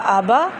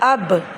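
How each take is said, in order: First: The word ends with a short a vowel. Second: The word ends on a bare consonant b. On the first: "हमज़ा ज़बर आ बा ज़बर बा आबा" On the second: "अब हम वक्फ़ करेंगे ... बा की ज़बर ख़त्म हो गई"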